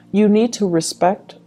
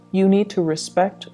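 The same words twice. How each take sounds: The two takes are said the same way.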